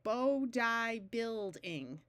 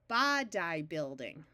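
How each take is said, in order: First: Body has a long O and a long I. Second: Body has a short O and a long I. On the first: "that doesn't sound right" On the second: "switch from the long O to the short O"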